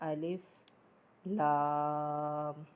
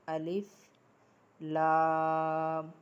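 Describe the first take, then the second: Both takes have the same delivery.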